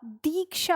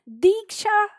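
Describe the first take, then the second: First: दीक्षा said slowly and carefully, the right way; correct form. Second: दीक्षा called out sharply as the wrong form. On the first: Teacher slowly models the correct दीक्षा for the class. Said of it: "दीक्षा होता है". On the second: Teacher calls out the wrong word दीक्षा, higher and louder. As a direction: fling out दीक्षा as the mistaken spelling. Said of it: "दीक्षा नहीं होता". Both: Shown as a demonstration.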